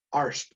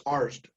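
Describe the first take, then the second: First: Arst with a crisp s and t ending; actor's own pronunciation. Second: Arst with a buzzing z and d ending, "Arzd"; corrected pronunciation. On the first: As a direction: say "Arst" with an unvoiced st. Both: Retold or imitated. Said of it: "I was saying my name wrong".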